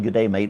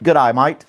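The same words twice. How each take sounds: First: Said in the usual way. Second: "good eye might" as Aussie greeting; Australian accent. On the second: Shown as a demonstration. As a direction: run it together for an Australian accent. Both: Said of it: "it sounds like you're saying".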